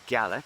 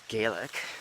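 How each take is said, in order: First: The word uses the Scottish Gaelic pronunciation. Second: The word uses the pronunciation Scots object to. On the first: This is the form used in Scottish Gaelic. The speaker calls it right. "That's what you say in Scottish Gaelic" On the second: This is the form Scottish speakers dislike. The speaker calls it wrong. "the Scots don't like it when you say Gaelic"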